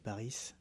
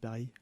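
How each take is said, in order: First: The final S sound is pronounced. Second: The final S sound is silent. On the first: The speaker calls it right. "On prononce le S" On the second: The speaker calls it wrong. "tout le monde dit Paris"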